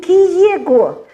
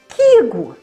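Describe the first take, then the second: First: The vowel is split into two separate sounds. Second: The vowel glides smoothly as one sound. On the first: The speaker calls it wrong. "не киего" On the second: The speaker calls it right. "Как бы одну букву, только немножко она одна переходит в другую"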